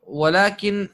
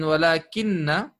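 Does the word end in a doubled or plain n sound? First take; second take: plain; doubled. First: The word ends in a single, unvoweled n. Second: The word ends in a doubled n plus vowel. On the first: "our friend walakin has a sukoon of the noon" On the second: "walakin has a shadda on the noon"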